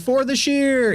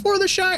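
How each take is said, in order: First: The last word rhymes with fear. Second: The last word rhymes with fire. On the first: The speaker calls it wrong. "He doesn't run in there saying" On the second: The speaker calls it right. "Frodo pronounced it right"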